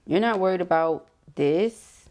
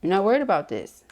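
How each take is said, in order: First: Slow, with a rising tune on not; a slow, questioning take; drawn-out rising take. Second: A more settled statement; firmer retake. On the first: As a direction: stretch out You're not worried about this and lift not upward. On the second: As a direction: stress on worried, falling tune. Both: Shown as a demonstration. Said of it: "that don't sound good when we say it like that".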